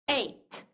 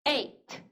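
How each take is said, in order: No difference in how they are said.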